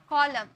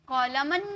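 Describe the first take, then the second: First: The word ends on the m sound. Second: The word ends with an added n sound. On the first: The speaker calls it right. "मो में sound खत्म हो रहा" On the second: The speaker calls it wrong. "कॉलमन नहीं बोले"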